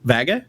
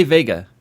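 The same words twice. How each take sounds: First: VEGA said with a short A, VAG-uh; failed repeat. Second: VEGA said with a long A, VAY-guh; correct pronunciation. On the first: Real, not acted. Friend trying to copy host's word, mispronounced. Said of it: "You sound like someone". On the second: Shown as a demonstration. Host testing friend with the word, correct pronunciation. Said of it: "do you say Vega?".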